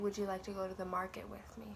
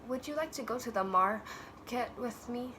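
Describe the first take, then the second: First: Every word is said whole, without a breath. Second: A breath splits one word in the middle. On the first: The speaker calls it right. "You would say" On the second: The speaker calls it wrong. "You don't say"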